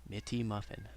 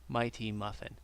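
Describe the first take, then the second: First: The first vowel is a short 'ih' sound. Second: The first vowel is a long 'eye' sound. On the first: The speaker calls it wrong. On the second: The speaker calls it right.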